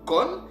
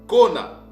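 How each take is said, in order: First: The word is one syllable ending in n. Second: The word is two syllables ending in a. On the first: The speaker calls it wrong. "ne se lit pas kun ou kon" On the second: The speaker calls it right. "mais ça se lit ou ça se lisait kona"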